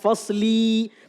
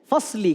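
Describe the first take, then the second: First: The final 'li' vowel is drawn out long. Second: The final 'li' vowel is short. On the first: The speaker calls it wrong. "Gak fasli" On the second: The speaker calls it right. "Pendek saja"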